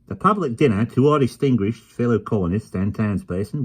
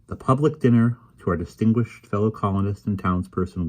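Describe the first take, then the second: First: It is read in an Australian accent. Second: It is read in the reader's usual accent.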